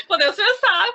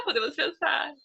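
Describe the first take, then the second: First: Laughing it out, higher and louder; amused laugh on "Podemos pensar". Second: Said in the usual way. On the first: Real, not acted. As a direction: say it through a laugh. Laughing at own joke.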